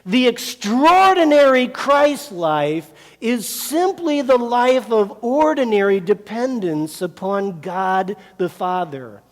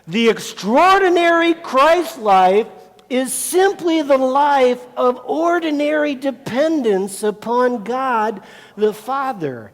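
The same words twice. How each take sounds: First: It is read in a calm, plain way. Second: It is read loudly with strong conviction.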